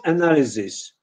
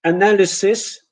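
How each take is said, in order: First: ANALYSIS with z, a-NA-li-zis; Polish-style Z error. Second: ANALYSIS with s, uh-NAL-uh-sis; English S in ANALYSIS. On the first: Teacher showing what not to say, wrong z sound. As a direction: mispronounce ANALYSIS with a buzzing z. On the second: Teacher modelling English for Polish learners, correct s sound. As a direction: say ANALYSIS with a hissing s. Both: Shown as a demonstration. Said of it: "is not analysis".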